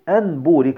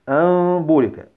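First: The n is pronounced clearly before the b. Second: The n becomes a nasalized m before the b. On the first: The speaker calls it wrong. "من غير تطبيق حكم الإقلاب وقعت في الخطأ" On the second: The speaker calls it right. "ولكن الصحيح أن تقول"

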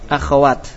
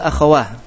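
First: The word ends in a t sound. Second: The word ends in an h sound. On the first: This is the original form. "Asalnya apa akhwah? Akhwat" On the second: This is the dialect's pausal reading. "dibaca ha"

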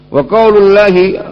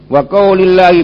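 First: The vowel after 'qaul' is a 'u' sound. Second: The vowel after 'qaul' is an 'i' sound. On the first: "bisa juga dibaca wa qaulullahi" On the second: "Kalau dibaca wa qaulillah ataf ila tauhid"

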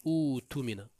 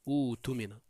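The two takes are said the same way.

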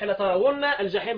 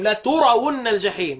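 First: The t is followed by an a vowel. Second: The t is followed by a u vowel. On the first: "بالفتح لا ترون الجحيم باقي القراء" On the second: "لا ترون بضم التاء"

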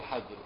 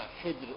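First: The first vowel is a, as in hajr. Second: The first vowel is i, as in hijr. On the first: "وفتح الحاء" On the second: "بكسر"

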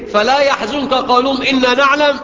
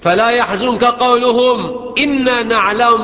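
First: The words run on without a pause. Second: There is a pause after قولهم. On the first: What follows sounds like part of their words. The speaker calls it wrong. "يبقى كأنه بينهاه عن إيه حزنه لقولهم إن إيه نعلم" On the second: What follows is a new statement, not their words. The speaker calls it right. "هنا وقف لازم تستأنف"

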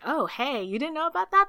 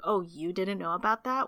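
First: It sounds warm and excited. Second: It sounds scornful and dismissive.

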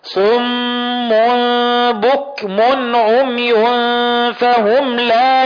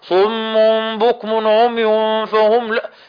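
First: Lips round on rounded letters, then relax. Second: Lips stay rounded across every letter. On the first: The speaker calls it right. "من اللحن عدم الضم ثم البسط" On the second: The speaker calls it wrong. "تلاقي كل الحروف طالعه كده ... تلاقي مش مظبوط"

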